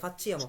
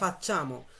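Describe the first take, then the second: First: An 'ee-ya' sound follows the 'ch'. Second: The 'ch' goes straight into 'a'. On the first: The speaker calls it wrong. "অনেকে এটাকে ফাচ্চিয়ামো বলে" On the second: The speaker calls it right. "এটা হবে ফাচ্চামো"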